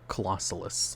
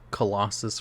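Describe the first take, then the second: First: The name is said with four syllables. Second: The name is said with three syllables. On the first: The speaker calls it right. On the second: The speaker calls it wrong.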